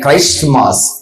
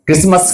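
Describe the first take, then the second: First: Said as two parts, Christ and mass. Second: Said as blended krismas, with no t sound. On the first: It centers on Christ himself. The speaker calls it right. "కానీ క్రైస్ట్ మాస్" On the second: It is just a festive holiday. The speaker calls it wrong. "క్రిస్మస్ కాదు"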